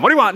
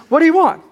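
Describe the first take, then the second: First: Short, irritated "What do you want?", hammed up; mock yelling at the door. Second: "What do you want?" lifted high and open, stress on want; higher, gentle asking. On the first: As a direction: bark it like someone's pounding on your door. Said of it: "you're just yelling at 'em". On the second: Shown as a demonstration. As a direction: ask it with real curiosity, pitch up. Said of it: "No, no, no. Just".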